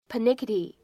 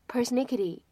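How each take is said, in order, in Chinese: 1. 它在 n 前面没有 s 的音。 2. 它在 n 前面有 s 的音。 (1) "而在英式英语当中呢" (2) "这是一个美式的拼写和发音"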